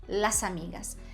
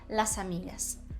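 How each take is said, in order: First: The final s runs into the next vowel. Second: The final s runs into the next vowel.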